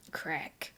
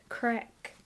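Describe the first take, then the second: First: Whispered "Crack." tried out under the breath; whispered word. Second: "Crack." voiced in Cockney with an open flat a; Cockney word. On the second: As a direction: relish "Crack." in a Cockney accent. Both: Shown as a demonstration. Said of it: "Sounds so fun in, uh, a Cockney accent".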